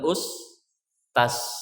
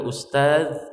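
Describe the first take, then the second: First: The word ends with a hissing s sound. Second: The word ends with a voiced z sound. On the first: The speaker calls it wrong. "mereka akan mengatakan ustas" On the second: The speaker calls it right. "Kalau mereka akan mengatakan ustaz"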